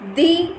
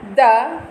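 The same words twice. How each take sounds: First: It is said with a long 'ee' vowel. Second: It is said with a short, weak 'uh' vowel. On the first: It comes before a vowel sound. "before vowels" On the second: It comes before a consonant sound. "before consonant"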